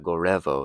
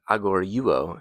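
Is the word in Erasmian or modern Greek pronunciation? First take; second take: modern; Erasmian. First: It is said in modern Greek pronunciation. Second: It is said in Erasmian Greek pronunciation. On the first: "if you're using uh, modern pronunciation" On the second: "if you're using an Erasmian pronunciation"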